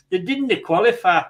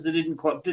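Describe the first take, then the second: First: Badly faked Scottish accent. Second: Said in the usual way. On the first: Host teasing [name] about Scotland not qualifying, bad Scottish accent. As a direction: put on a terrible Scottish accent, a little louder. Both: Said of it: "that was a terrible Scottish accent".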